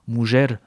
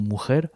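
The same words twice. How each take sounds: First: The word is said with an old pronunciation. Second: The word is said with a modern pronunciation. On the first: This is how the word sounded in earlier Spanish. "avec la prononciation euh, ancienne" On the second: This is how the word sounds in Spanish today. "en espagnol contemporain on prononcerait plutôt mujer"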